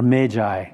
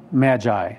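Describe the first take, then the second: First: "Magi" with a long a, as in "may"; long-a MAY-jye. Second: "Magi" with a short a, as in "mad"; short-a MAD-jye. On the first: Preacher offers the alternative pronunciation, long-a "Magi". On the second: Preacher reading scripture offers one pronunciation, short-a "Magi". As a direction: say "Magi" as MADGE-eye. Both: Shown as a demonstration. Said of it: "ever how you want to pronounce it".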